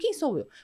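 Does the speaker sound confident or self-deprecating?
confident. It sounds firm and self-assured. The speaker is about to proudly state who they are. The speaker calls it right. "você é assim"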